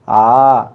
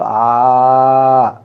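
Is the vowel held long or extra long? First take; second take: long; extra long. First: The vowel is held at ordinary long length. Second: The vowel is drawn out about three times longer. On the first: "ये लंबा हुआ, आ दीर्घ हो गई" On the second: "उसको प्लुत करना है तो आ लंबा का"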